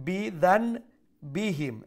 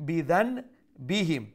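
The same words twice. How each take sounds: The two takes are said the same way.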